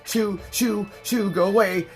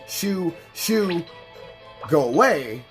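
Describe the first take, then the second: First: It is said frantically and loudly. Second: It is said calmly and quietly.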